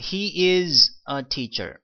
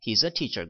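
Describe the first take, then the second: First: It is said in full as two words. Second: It is contracted into one syllable.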